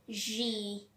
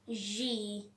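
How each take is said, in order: First: The letter is said with a vibrating buzz. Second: The letter is said with a vibrating buzz.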